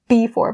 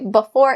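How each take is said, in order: First: The first vowel is a full ee sound. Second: The first vowel is short and reduced. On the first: It takes more effort to say. "that ee is a little bit too much work" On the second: It lets the phrase be said faster. "it allows me to say the phrase a little bit faster"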